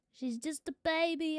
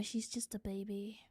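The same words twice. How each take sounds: First: Said in the usual way. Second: Whispered, voice off; tender whisper about her puppy; fond whisper. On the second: Real, not acted. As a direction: breathe it softly about the dog. Fond aside about her dog.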